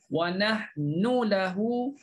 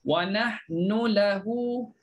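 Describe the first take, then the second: The two takes are said the same way.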